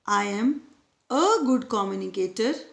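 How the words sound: The stress falls on the word 'a'. "Next sentence में ए है"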